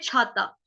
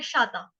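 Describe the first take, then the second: First: The word begins with an aspirated ch sound. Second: The word begins with a sh sound. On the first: The speaker calls it right. "छ से छाता।" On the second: The speaker calls it wrong. "कुछ लोग जो होते हैं वो इसको बोल देते हैं शाता।"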